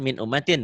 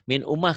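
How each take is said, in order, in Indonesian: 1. Kata terakhir berakhir dengan bunyi 'tin'. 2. Kata terakhir berakhir dengan bunyi 'h'. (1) "Tetap tin ya" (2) "kalau dihentikan"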